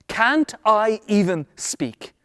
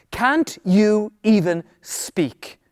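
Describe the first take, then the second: First: "Can't I even speak" drawn out word by word, weight on "I"; slow, deliberate question. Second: "Can't you even speak" stretched out, weight on "you"; slow, pointed question. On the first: Acted. David questioning his brothers, slow stress on "I". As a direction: spell out each word slowly, leaning on "I". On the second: Real, not acted. Preacher challenging the congregation, slow stress on "you". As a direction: put the question slowly to them, leaning on "you".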